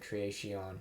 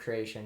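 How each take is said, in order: First: It is said in a Shakespearean-era accent. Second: It is said in a modern English accent.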